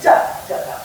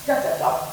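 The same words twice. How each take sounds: First: Strong first "da", then two weak "da, da"; "da, da, da" long, short, short; dactyl rhythm. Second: Two weak "da, da", then a strong final "da"; "da, da, da" short, short, long; anapest rhythm. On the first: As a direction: hit the first "da", drop the other two. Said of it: "one strong, two weak". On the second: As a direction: land on the last "da" of "da, da, da". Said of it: "Two weak, one strong". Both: Shown as a demonstration.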